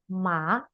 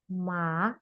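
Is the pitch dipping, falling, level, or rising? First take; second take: rising; rising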